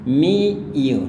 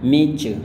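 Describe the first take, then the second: First: The t sound is left out entirely. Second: The t and y blend into a ch sound. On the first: Some American speakers say it this way. "T-nya nggak dilafalkan jadi meet you" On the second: This is the most common American style. "gaya Amerika biasanya kebanyakan meet you"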